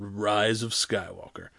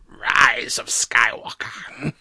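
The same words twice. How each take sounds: First: It is said in the speaker's normal voice. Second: It is said in a put-on sinister villain voice.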